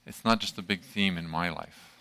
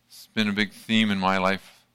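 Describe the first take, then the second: First: "not" stressed, the rest quieter. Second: Said in the usual way. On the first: Shown as a demonstration. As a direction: lean on "not" to set it against the earlier line.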